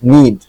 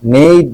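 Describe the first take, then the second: First: The ending sounds like 'need'. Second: The ending sounds like 'nayd'. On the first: The speaker calls it right. "এটার উচ্চারণ কিন্তু হ্যাক নিড" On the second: The speaker calls it wrong. "নেইড না"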